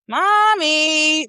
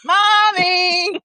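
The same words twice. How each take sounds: First: Put-on high, sing-song little-girl mommy; imitating a child calling mommy. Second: High, louder close-up call; imitating a child calling mommy. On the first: Mom retelling her daughter calling her, high and sing-song. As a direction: call out like a playful toddler. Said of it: "I love how she be like". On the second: Friend retelling the daughter's third call, high and loud. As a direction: call mommy right behind her, like a toddler. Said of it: "when she was right behind you".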